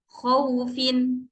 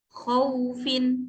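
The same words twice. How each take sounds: Both takes have the same delivery.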